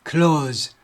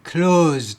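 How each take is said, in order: First: The word ends with a hissing s sound. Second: The word ends with a buzzing z sound. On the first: It is the adjective meaning near. "형용사면 close s 발음하시고" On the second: It is the verb meaning to shut. "동사일 때는 이렇게 발음하시고"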